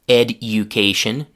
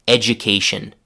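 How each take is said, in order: First: The d and y sounds stay separate. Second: The d and y merge into a 'j' sound. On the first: The speaker calls it wrong. "Nobody says education" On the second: The speaker calls it right. "They say education"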